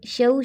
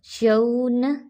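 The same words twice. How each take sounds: First: शऊ without lifting the zabar; wrong way. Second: शऊन with the vowel raised; lifted zabar. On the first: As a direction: careless शऊ. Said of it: "शऊ नहीं पढ़ना". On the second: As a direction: lift शऊन slightly upward. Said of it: "थोड़ा सा ऊपर उठा के". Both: Shown as a demonstration.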